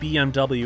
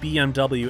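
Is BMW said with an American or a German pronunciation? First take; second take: American; American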